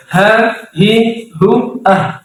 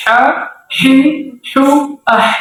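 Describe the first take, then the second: First: Ha, hi, hu diucapkan ringan dari tenggorokan. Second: Ha, hi, hu dengan desah tenggorokan tajam; ha pedas. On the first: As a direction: lafalkan ha besar dengan ringan. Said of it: "Kalau H besar, biasa". (contoh ha besar yang ringan) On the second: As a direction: ucapkan ha kecil agak pedas. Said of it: "agak pedas sedikit". (contoh ha kecil dengan desah tajam) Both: Shown as a demonstration.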